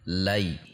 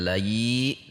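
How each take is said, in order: First: The syllable ends short on the glide. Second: The syllable ends with an added i vowel. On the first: The speaker calls it right. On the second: The speaker calls it wrong. "tidak layi"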